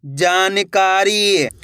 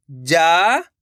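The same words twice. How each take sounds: First: जानकारी drawn out slowly as one word; teacher slowly reading जानकारी whole; slow blended reading. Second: जानकारी begun on its first syllable, rising; teacher cueing जानकारी syllable first; syllable prompt. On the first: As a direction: read जानकारी very slowly with a falling end. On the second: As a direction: cue जानकारी with a rising opening sound. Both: Shown as a demonstration. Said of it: "ये देखना है कि मैं किस तरीके से".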